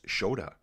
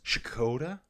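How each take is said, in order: First: It begins with sh and no k. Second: It begins with sh followed by k. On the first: "Or just Shoda?" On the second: "So it's Shkoda?"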